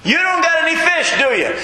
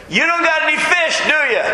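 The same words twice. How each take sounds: First: High, mocking yell; taunting stranger. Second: High, mocking call from the shore; taunting stranger. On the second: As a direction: tease them like a smug onlooker. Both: Shown as a demonstration. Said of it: "That's literally how it reads".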